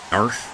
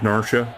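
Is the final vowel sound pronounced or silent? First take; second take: silent; pronounced. First: The name ends on the consonant, no final vowel. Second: The name ends with a pronounced final vowel. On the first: "don't pronounce the E" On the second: "I always thought that's how you would pronounce it"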